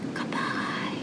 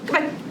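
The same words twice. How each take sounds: First: It is said very quietly. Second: It is said very fast. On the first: "Let's say goodbye as quiet as we can" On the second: "Let's say goodbye as fast as we can"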